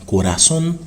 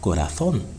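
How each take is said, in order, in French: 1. Le z se prononce comme un s. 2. Le z se prononce comme un th. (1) "ou sonne normal" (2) "ou fait Z là sonne feta"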